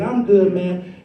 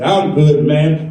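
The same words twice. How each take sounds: First: It is said in a normal voice. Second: It is said in a very deep voice.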